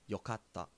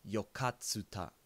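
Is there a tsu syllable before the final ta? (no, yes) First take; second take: no; yes. First: The t is doubled with no tsu syllable. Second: A full tsu syllable comes before ta. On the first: The speaker calls it right. "I would say yokatta" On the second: The speaker calls it wrong. "yokatta is not pronounced yokatsuta"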